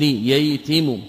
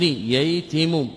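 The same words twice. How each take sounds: First: Said in the usual way. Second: ييتم drawn out syllable by syllable, kasra on the taa; slow spelled-out verb. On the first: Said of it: "بالكسر". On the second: Shown as a demonstration. Teacher spelling out the verb form for students, slowly drawn out. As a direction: stretch out ييتم slowly so each vowel is heard. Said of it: "الصبي بالكسر".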